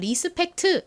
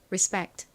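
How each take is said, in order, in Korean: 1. 한국식 음절로 발음하고, p는 약하게 발음해요. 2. 미국식으로 발음하고, p는 강하고 긴장되게 발음해요. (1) "한국식으로는 리스펙트 이렇게 발음하지만" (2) "실제 미국식 원어 발음으로는 respect, respect 이렇게 이 P를 거의 쌍비읍에 가깝게 좀 세게 발음합니다"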